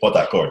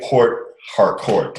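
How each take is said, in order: First: The name is said the way Nigerians say it. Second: The name is said in a non-Nigerian way. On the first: The speaker calls it right. "We say Port Harcourt" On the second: The speaker calls it wrong. "we don't say Port Harcourt"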